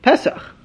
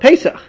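First: It is said in the Sephardi Hebrew pronunciation. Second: It is said in the Ashkenazi Yiddish pronunciation.

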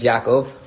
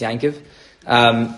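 First: The name is said with a full 'kov' ending. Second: The name is said with a 'kiv' ending.

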